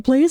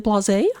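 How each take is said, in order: First: The name sounds like the word 'blaze'. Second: The name sounds different from the word 'blaze'. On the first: This is the pronunciation the speaker refuses to use. The speaker calls it wrong. "I will never say Blaze" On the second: This is the pronunciation the speaker insists on. The speaker calls it right. "I will always say Blase"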